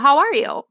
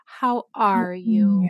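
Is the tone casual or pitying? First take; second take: casual; pitying. First: It sounds casual and matter-of-fact. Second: It sounds pitying and sorrowful. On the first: The asker simply wants an update. The speaker calls it right. "Like, well" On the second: The asker feels sorry for the person. The speaker calls it wrong. "Not, ... they pity me in their tone"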